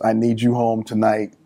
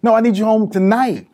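First: Understate it, leave no room for argument; Mama's firm way. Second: Higher-pitched, mildly insistent retold demand; insistent mama. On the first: Retold or imitated. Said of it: "there's a way Mama says". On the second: Mother refusing son's Saturday offer, insistent. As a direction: overrule him, pitching it up.

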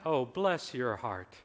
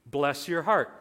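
First: Slow, drawn-out hint of a Southern accent. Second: Said in the usual way. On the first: Quoting a Southern phrase to the church, light Southern accent. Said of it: "In your southern accent".

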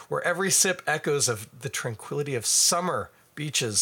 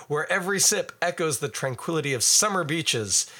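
First: "Where every sip echoes of the tranquility of summer beaches" with a stray pause inside; stumbling reading with a pause where none belongs; misphrased reading. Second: "Where every sip echoes the tranquility of summer beaches" read as one smooth phrase; a light promo read, fixed; corrected reading. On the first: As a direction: lightly misread ad copy. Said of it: "I put in punctuation where it did not exist". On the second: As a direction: read it again cleanly, no stray pauses. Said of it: "Let me try that again". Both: Shown as a demonstration.

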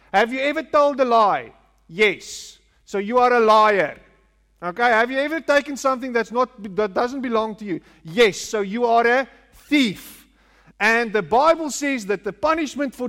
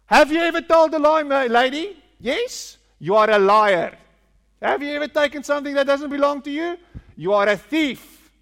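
First: Pushy evangelist grilling a stranger, lightly voiced; mock street evangelist. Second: Higher, louder, fast pushy evangelist; hammed-up street evangelist. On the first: Preacher mimicking street evangelists interrogating passers-by, mildly pushy. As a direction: press the listener like a preacher on the street, faster. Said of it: "that's how we convert people as well". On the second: Preacher mocking evangelists accosting a lady on the street, hammed-up and louder. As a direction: fire accusations at the lady, hammed up. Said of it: "And that's how we convert people".

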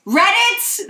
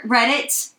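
First: "Reddit" said higher and louder as a correction; stress on Reddit. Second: Said in the usual way. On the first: Shown as a demonstration. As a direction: punch "Reddit" to fix the slip. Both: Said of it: "not Ranker".

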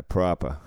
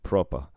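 First: "proper" with an open ah vowel, Boston style; "proper" with a wide ah, Boston style. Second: "proper" with a rounded o, Irish style; "proper" with the o rounded like in Ireland. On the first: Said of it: "And we say". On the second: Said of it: "they say it in Ireland". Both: Shown as a demonstration.

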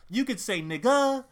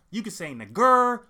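First: Final syllable of "nigga" as an open "uh", no r; open -a ending. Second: Final syllable of "nigger" with a sounded r; hard -er ending. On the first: Listing permitted pronunciations to listeners, "nigga" ending in open -a. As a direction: end "nigga" on a loose, r-less vowel. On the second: Listing permitted pronunciations to listeners, "nigger" ending in hard -er. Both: Shown as a demonstration.

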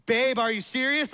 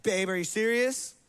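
First: Slightly raised, madder mock yell; half-hearted yell of disbelief. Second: Mild, contained annoyance, question rising; incredulous but not yelling; mildly mad. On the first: Wife yelling at husband, mild mock yell. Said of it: "Like, yelling". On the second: Acted. Wife mildly mad at husband, contained annoyance. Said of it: "There's mad where it's like".

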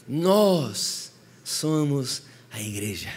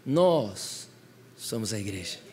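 First: "Nós somos a igreja" drawn out very slowly, leaning on "nós"; slow emphatic declaration. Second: Quiet statement. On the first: Preacher declaring to congregation who the church is, slow and weighty. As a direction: stretch each word, weight on "nós". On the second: Preacher quietly first naming the church, softly. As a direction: lower and much softer, falling gently. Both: Shown as a demonstration.

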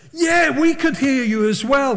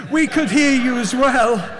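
First: Said in the usual way. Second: Loud, high attempt at an American accent. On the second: Another diner calling across restaurant, American accent. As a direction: call it over in a put-on American voice. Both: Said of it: "The American accent's gone".

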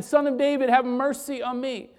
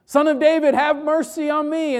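First: Retold cry for mercy, pitched up; mild crying out. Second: Loud, high-pitched desperate call; louder crying out. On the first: Blind beggar calling out once more to Jesus, mildly crying out. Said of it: "he cries out again". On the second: Retold or imitated. Blind beggar shouting to Jesus over the hushing, loud cry. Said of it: "Bartimaeus gets even louder".

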